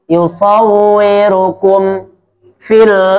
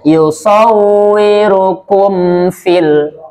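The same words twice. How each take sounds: First: There is a brief pause between the two words. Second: The two words run together without a pause. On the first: The speaker calls it wrong. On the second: The speaker calls it right. "Langsung saja ya"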